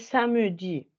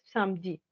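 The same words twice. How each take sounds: First: The middle e is pronounced as a full syllable. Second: The middle e is dropped, leaving two syllables. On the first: A valid but less common variant. "Hay gente que dice samedi" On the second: The way people naturally say it. "lo que naturalmente la gente dice es samedi, entonces hacen caer esta E"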